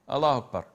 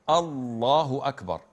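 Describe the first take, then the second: First: The L sound in Allahu is short. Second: The L sound in Allahu is held long. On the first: The speaker calls it wrong. "You can't say Allahu Akbar, because this is not Allah's name" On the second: The speaker calls it right. "you have to say Allahu Akbar. This is shadda, which indicates that there are two L's"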